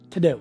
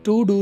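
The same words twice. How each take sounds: First: The word 'to' has a reduced vowel. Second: The word 'to' has a full vowel. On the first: The speaker calls it right. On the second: The speaker calls it wrong.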